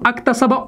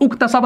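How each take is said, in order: First: The word begins with an a vowel. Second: The word begins with a u vowel. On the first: "अक्तसबा उक्तसबा नहीं पढ़ेंगे" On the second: "अक्तसबा उक्तसबा नहीं पढ़ेंगे"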